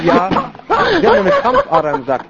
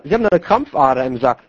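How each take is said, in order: First: Doctor's line squeaked high with a laugh; high mock doctor voice. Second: Said in the usual way. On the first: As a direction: repeat the diagnosis in a silly high voice. Zweite Version, hoch. (Diagnose in hoher, lachender Stimme wiederholt)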